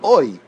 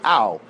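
First: The vowel is said as 'oi'. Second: The vowel is said as 'au'. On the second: "They don't say o, they say au"

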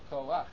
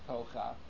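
First: The 'a' vowel comes before the 'ch' sound. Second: The 'a' vowel comes after the 'ch' sound. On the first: The speaker calls it right. "it's pronounced koach" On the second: The speaker calls it wrong. "so it's not pronounced kocha"

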